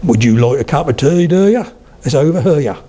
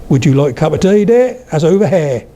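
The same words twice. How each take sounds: First: Suffolk lilt, jumping up on "do ya"; broad Suffolk, "tea" and "here" drawn round; Suffolk accent. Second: Norfolk lilt, jumping up on "dear"; broad Norfolk with wide, open vowels; Norfolk accent. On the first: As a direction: stretch "here" into two syllables, Suffolk style. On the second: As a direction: say "here" as one open "hair", Norfolk style. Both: Shown as a demonstration.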